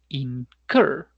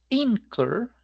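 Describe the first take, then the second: First: The stress is on the last syllable. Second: The stress is on the first syllable. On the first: The speaker calls it right. "sino incur" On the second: The speaker calls it wrong. "No es incur"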